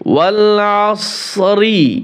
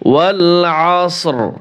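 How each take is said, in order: First: The word ends with an added i vowel. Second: The word ends on r with no vowel. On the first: The reciter joins it to the next word. "মিলিয়ে যদি যান" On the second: The reciter stops after this word. "এইখানে যদি ওয়াকফ করি আমরা"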